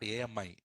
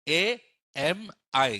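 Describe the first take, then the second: First: The letters run together into one word. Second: Each letter is said with short gaps between. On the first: The speaker calls it wrong. "Not A M I. A M I meaning which girl in Telugu" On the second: The speaker calls it right. "A M I gives some millisecond gaps"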